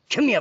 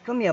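First: The voice sounds stern and demanding. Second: The voice sounds warm and friendly. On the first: The listener feels threatened. The speaker calls it wrong. "But if you go" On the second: The listener feels welcome and safe. The speaker calls it right. "in your voice"

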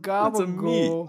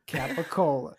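First: The word is clipped and ends in "gool". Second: Every syllable is said, ending in "la". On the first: "Gabagool is the exaggerated pronunciation of capicola"

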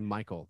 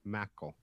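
First: The first vowel sounds like 'my'. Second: The first vowel sounds like 'mack'. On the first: "can say Michael" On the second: "They all say Mackel"

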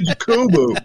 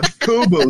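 First: The name begins with a breathy H-like sound. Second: The name begins with an English J sound. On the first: The speaker calls it right. "say Jacobo. We've got to say it right" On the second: The speaker calls it wrong. "It's not Jacobo"

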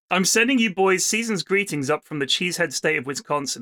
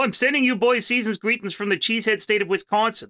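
First: It is read in the speaker's ordinary accent. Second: It is read in a put-on Midwestern, Canadian-like accent.

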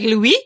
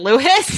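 First: The name sounds French, ending in an ee sound. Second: The name sounds English, ending in an s sound. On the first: The speaker calls it wrong. "as if he were French. And I said it in a way like" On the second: The speaker calls it right. "I'm sorry. May I please speak with"

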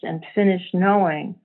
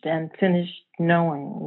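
First: The phrase ends suspended, as if more follows. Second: The phrase ends with a final, closing fall. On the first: Something else is about to happen. "as if to say, yeah. And then, you know, and whoa, what happened then?" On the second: Something has come to an end. "it feels like an end to something"

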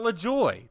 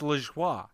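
First: The name is said with an English-style pronunciation. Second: The name is said with a French-style pronunciation. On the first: The speaker calls it wrong. "Not LaJoie" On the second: The speaker calls it right. "it's LaJoie. ... it's a French name"

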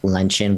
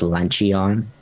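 First: The word is said the usual, conventional way. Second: The word is sounded out exactly as spelled. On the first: The speaker calls it right. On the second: The speaker calls it wrong.

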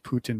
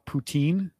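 First: The word ends with a short 'tin' sound. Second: The word ends with a long 'teen' sound. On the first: The speaker calls it right. "but it is Putin, like Vladimir Putin" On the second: The speaker calls it wrong. "for Americans who don't pronounce it the same, we call it poutine"

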